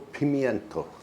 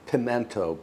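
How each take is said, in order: First: It is said with an 'ee' after 'pim'. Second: It is said without an 'ee' after 'pim'. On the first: It follows the way the word is spelled. "it's spelled pimiento. So that's how I pronounce it" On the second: Some other people say it this way. "I know some people say pimento"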